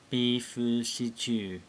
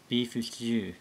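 First: The phrase is said slowly, syllable by syllable. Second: The phrase is said quickly and run together.

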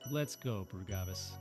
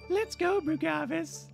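First: It is spoken in his normal voice. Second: It is spoken in a high falsetto voice. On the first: "I don't really got a good girly voice" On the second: "I could go like falsetto, but it just sounds"

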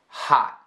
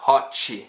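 First: The final T is held and not released. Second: The T becomes 'ch' with an added vowel. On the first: The speaker calls it right. "I am almost pronouncing the T, but I'm not" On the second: The speaker calls it wrong. "It's not hot-chi, something like that"

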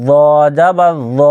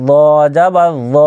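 Both takes have the same delivery.

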